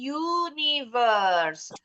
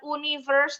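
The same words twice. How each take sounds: First: The word begins with a y sound. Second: The word begins with a plain oo vowel. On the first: The speaker calls it right. "Bunyinya U, huruf Y" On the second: The speaker calls it wrong. "bukan universe"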